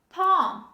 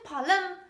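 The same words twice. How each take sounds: First: The L sound is silent. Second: The L sound is pronounced. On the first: The speaker calls it right. "This is palm" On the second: The speaker calls it wrong. "Don't say palm"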